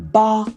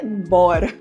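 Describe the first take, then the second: First: The middle consonant is light and soft. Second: The middle consonant is strong and heavy. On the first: The speaker calls it right. "é uma coisa mais suave" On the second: The speaker calls it wrong. "Não é bora. Nossa, do português"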